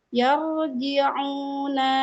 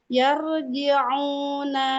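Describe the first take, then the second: Both takes have the same delivery.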